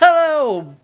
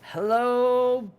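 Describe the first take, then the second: First: The greeting is energetic and loud, nearly yelled. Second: The greeting is energetic but at moderate volume. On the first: The speaker calls it wrong. "I kind of messed it up at the beginning and I still yelled anyway" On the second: The speaker calls it right. "Let's bring high energy without the volume"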